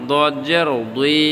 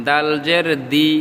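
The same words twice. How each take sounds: First: 'দুই' with a thick, rounded d; heavy D. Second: 'দি' with a thin d; light D. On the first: Teacher contrasts two letters, 'দুই' with a heavy d. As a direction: make 'দদ' and 'দুই' heavy. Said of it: "দুইটা আলাদা". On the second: Teacher contrasts two letters, 'দি' with a light d. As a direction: keep 'দাল' and 'দি' light. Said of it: "একটা হলো দি আর দুই". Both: Shown as a demonstration.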